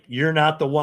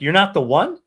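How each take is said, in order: First: It sounds firm and decisive. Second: It sounds uncertain and questioning.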